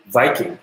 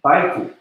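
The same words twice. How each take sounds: First: Viking begun with a buzzed V; V pronunciation. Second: Biking begun with a B, lips closed; B pronunciation. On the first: Learner showing the B and V difference, V in Viking. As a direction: say Viking with V, not B. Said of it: "between B and V". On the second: Learner showing the B and V difference, B in Biking. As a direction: say Biking with B, not V. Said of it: "B and V pronunciation". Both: Shown as a demonstration.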